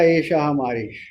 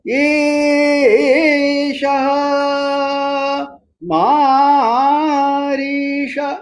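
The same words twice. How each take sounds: First: It is said flatly, like ordinary conversation. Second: The pitch rises and falls in a stylized way.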